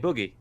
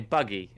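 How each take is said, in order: First: It is said in a northern English accent. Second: It is said in a local southern English accent. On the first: "I say boogie" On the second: "people around here they say buggy"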